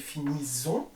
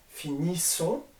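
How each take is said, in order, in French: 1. La consonne du milieu est un z bourdonnant. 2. La consonne du milieu est un s sifflant. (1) "Parce que sinon ça fait finissons. Il y a une voyelle là et une voyelle là" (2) "on le reproduit pour nous, vous et elle"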